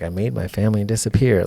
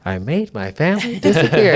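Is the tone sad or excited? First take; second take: sad; excited. First: It is said in a sad tone. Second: It is said in an excited tone.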